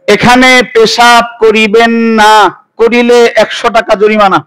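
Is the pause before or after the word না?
after. The pause comes after না.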